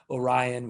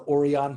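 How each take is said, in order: First: Orion is pronounced the English way. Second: Orion is pronounced the Spanish way.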